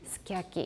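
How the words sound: It is said the way Japanese speakers say it. "in actual speech we may say sukiyaki"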